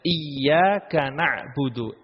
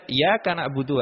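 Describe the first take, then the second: First: The y sound is held long, doubled. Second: The y sound is short, single. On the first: The speaker calls it right. "Ya di sini ada tasydidnya iyyaka" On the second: The speaker calls it wrong. "Tidak boleh dibaca ... tanpa menyebutkan tasydid"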